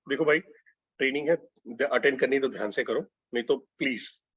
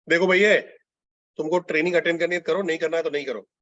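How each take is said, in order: First: Respectful, softened request; polite, humble. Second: Brusque, take-it-or-leave-it instruction; curt and dismissive; rude. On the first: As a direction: make a gentle, courteous appeal, easing lower. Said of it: "polite, आदर, humble". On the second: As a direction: rudely lay down the ultimatum, hard on the opening. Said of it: "rude". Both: Shown as a demonstration.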